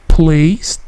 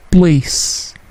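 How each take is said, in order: First: "place" with a strong burst on the P, said slowly; puffed P. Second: "place" with an unpuffed P; soft P. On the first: Teacher showing the wrong, puffed P in "place". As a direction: blow out the P of "place". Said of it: "P-nya tidak plosif, bukan place". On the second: Teacher showing the right, unpuffed P in "place". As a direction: keep the P in "place" soft and still. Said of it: "P-nya tidak plosif". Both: Shown as a demonstration.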